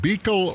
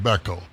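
First: First syllable of Beekel rhymes with "see"; long ee pronunciation. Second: First syllable of Beckel rhymes with "neck"; short e pronunciation. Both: Shown as a demonstration. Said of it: "is it Beekel or is it Beckel".

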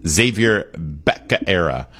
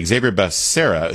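First: Becerra botched as "Bacaera", slowly; Biden's mispronunciation. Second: Said in the usual way. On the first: Retold or imitated. Host recalls how Biden said the name, Becerra mispronounced "Bacaera". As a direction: stumble slowly through Becerra as "BEK-uh-AIR-uh". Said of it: "I think Joe Biden called him". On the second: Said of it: "Anyway, Xavier Becerra".

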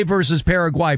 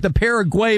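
First: Paraguay as "para-GWAI"; "Paraguay" with an "eye" last vowel; "gwai" ending. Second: Paraguay as "PARA-gway"; "Paraguay" with an "ay" last vowel; "gway" ending. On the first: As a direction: end Paraguay rhyming with why. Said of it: "proper pronunciation is Paraguay". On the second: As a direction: end Paraguay rhyming with day. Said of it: "the Paraguay versus Paraguay". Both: Shown as a demonstration.

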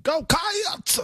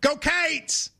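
First: "Go Cats!" yelled way up high, "Cats" stretched long; adding a syllable. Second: "Go Cates!" drawn out with the extra syllable; Kentucky cheer. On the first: Co-host belts the cheer, stretching "Cats" too long. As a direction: overdo the cheer, preacher-style. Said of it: "You're adding a syllable". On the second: Host demonstrates the Kentucky cheer for his co-host. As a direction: cheer it like a Kentucky Wildcats fan. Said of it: "in Kentucky, we go". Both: Shown as a demonstration.

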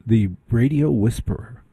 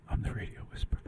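First: Said in the usual way. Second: Unvoiced whisper of the radio whisperer line. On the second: Shown as a demonstration. Host whispering his nickname to the listeners. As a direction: breathe it like a secret.

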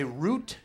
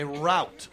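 First: Route said as "root"; pronunciation of route. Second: Route said as "rowt", rhyming with out; pronunciation of route. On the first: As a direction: say route to rhyme with boot. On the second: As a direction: say route to rhyme with shout. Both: Shown as a demonstration. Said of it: "Sometimes it's just pronunciation".

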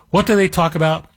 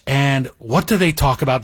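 First: Asking the listeners again, with more push; emphatic rhetorical repeat. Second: Said in the usual way. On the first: Shown as a demonstration. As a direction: punch the repeated question to the audience.

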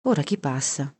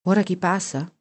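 First: Said in the usual way. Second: Raised repeat of the question; echoed question. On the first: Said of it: "disse Bibi". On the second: A narrator's reading. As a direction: ask it back with the voice lifted. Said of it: "feci io".

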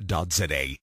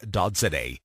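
The two takes are said the same way.

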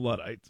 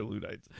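First: "Luddites" with first syllable like "LUD"; short-U pronunciation. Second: "Luddites" with first syllable like "LOO"; long-OO pronunciation. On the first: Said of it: "I call 'em, I call 'em Luddites". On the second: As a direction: say "Luddites" with an OO, as in "food". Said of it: "but it's probably Luddites". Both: Shown as a demonstration.

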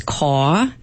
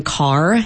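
First: "caw" with the R dropped, open vowel; r-less CAW. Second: Said in the usual way. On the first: Shown as a demonstration. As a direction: say "caw" for car, no R at the end. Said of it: "one is dropping R's". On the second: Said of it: "saying car as caw".

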